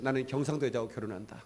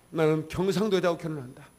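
First: Said in the usual way. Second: Louder declaration of "경상도", a vow said with full resolve; firm resolve. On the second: Retold or imitated. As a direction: proclaim "나는 경상도 여자하고 결혼한다" firmly and louder. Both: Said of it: "결심했어요".

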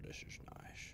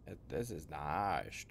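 First: Breathy hushed whisper. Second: Said in the usual way. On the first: Real, not acted. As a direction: say it under your breath. Repeats line as whisper.

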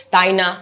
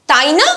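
First: তাই না? said low and falling; flat falling tune. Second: তাই না? with a lively rising tune; excited rising tune. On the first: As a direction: drop তাই না? low, no excitement. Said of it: "আমি যদি এটাকে না বলে". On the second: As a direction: say তাই না? with a bright rise. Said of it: "এভাবে বলছি". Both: Shown as a demonstration.

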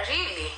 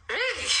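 First: Said in the usual way. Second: Higher, breathy-free soft "Really?" rising in delight; delighted surprise. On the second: Real, not acted. Streamer reacts to a viewer's compliment with delighted surprise. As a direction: sound pleasantly surprised.

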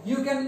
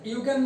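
No difference in how they are said.

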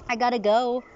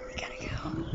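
First: Said in the usual way. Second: Much softer whispered repeat. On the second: Real, not acted. Owner whispers goodbye to the cat.

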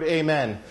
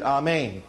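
First: Said in the usual way. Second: "amen" said as ah-MAYN; Hebrew pronunciation. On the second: Shown as a demonstration. Preacher shows the congregation the Hebrew word, "amen" pronounced ah-MAYN. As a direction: open AH at the start of "amen", then MAYN. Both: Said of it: "or they pronounced it amen".

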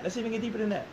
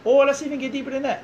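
First: Same line dropped to a softer voice; softer repeat. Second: Said higher and louder, pushing further. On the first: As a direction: pull back and say it softly. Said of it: "repeated line, second take softer". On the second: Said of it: "repeated line, first take louder". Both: Real, not acted.

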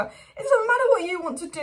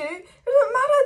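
First: Frustrated shout. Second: Higher and louder, voice breaking in frustration; cracking shout. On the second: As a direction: scream it out, at the end of your rope. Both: Real, not acted. Fan ranting, voice cracking.

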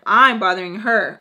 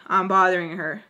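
First: I'm hit loud in offended disbelief; indignant repeat, leaning hard on I'm; stress on I'M. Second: Said in the usual way. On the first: Retold or imitated. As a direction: punch the word I'm, much louder than the rest. Offended repeat, punching the first word.

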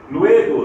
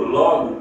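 First: "luego" with a clear "we" glide; "luego" said LWE-go, louder; Spanish UE diphthong. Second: Said in the usual way. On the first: Shown as a demonstration. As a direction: punch the ue in "luego". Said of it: "em espanhol ditonga para o E". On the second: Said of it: "que em português é o".

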